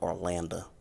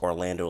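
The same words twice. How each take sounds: First: It is said in a country Southern accent. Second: It is said in a plain, ordinary accent.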